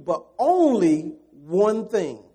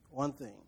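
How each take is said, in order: First: But only one thing, slow and loud, leaning on only; preacher hammering only one thing; slow loud emphasis. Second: One thing dropped much softer, almost to a whisper; quiet echo. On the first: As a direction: drive it home slowly. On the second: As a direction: let it fall away softly. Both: Shown as a demonstration.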